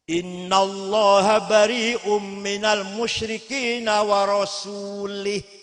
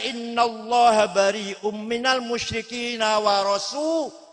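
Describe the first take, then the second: First: The final word ends with an 'ih' sound. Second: The final word ends with an 'ah' sound. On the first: God disowns the idolaters and also the Messenger. The speaker calls it wrong. "Ada orang baca Quran salah" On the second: God and the Messenger both disown the idolaters. The speaker calls it right. "Yang benar bacanya"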